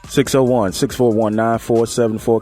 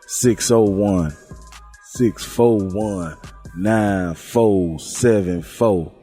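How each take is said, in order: First: It is said in his own normal voice. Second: It is said imitating another host's voice.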